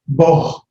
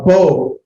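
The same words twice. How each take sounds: First: "bo" closed with a breathy H sound; wrong H ending. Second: "bo" ending on a pure long O; open O sound. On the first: Teacher showing the mistake to avoid, H sounded after "bo". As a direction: say "bo" as "boh", H heard at the end. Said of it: "There's no H sound at the end of it". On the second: Teacher showing students the vowel letter, plain long O in "bo". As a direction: say "bo" with no H at the end. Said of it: "There's no H sound". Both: Shown as a demonstration.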